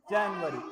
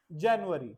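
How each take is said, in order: First: जनवरी said the Hindi way, जन-वरी; जनवरी as in Hindi, not English; wrong Hindi way. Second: जनवरी said as English January, जैन-यू-अरी; जनवरी the English way, slow and clear. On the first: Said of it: "Not जनवरी।". (हिंदी वाला जनवरी उच्चारण) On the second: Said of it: "We call it". (अंग्रेज़ी वाला सही उच्चारण) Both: Shown as a demonstration.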